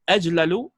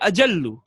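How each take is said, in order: First: The two L sounds are split by a vowel. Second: The two L sounds merge into one doubled L. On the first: The speaker calls it wrong. "opposing the established sarfi form" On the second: The speaker calls it right. "which is the correct form"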